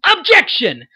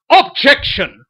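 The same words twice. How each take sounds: First: High, loud courtroom yell, weight on the second syllable of Objection; Phoenix. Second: Loud yell with OB hit hard in Objection; Edgeworth. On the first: Voice actor demonstrating a lawyer character's objection, high yell stressed on the second syllable. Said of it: "so that when Phoenix yells". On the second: Voice actor demonstrating the rival character's objection, loud yell stressed on the first syllable. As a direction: bellow Objection in a put-on voice, punching the first syllable. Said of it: "and then when Edgeworth goes". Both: Acted.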